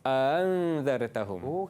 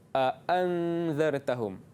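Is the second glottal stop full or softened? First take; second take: softened; full. First: The second glottal stop is softened and eased. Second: Both glottal stops are fully pronounced. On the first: "Tapi kalau tashil" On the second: "Tahqiq bunyi dia"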